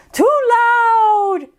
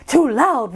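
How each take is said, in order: First: Too loud said up high and drawn out; higher, louder scolding. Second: Said in the usual way. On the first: Acted. Scolding the loud rooster, raised voice. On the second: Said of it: "random rooster".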